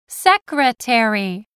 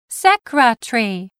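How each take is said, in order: First: Every syllable is fully pronounced. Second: A middle syllable is reduced or dropped. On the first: This is the American way of saying it. "That is why Americans say secretary" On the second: This is the British way of saying it. "instead of secretary, as the British do"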